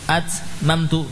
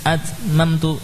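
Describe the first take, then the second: The two takes are said the same way.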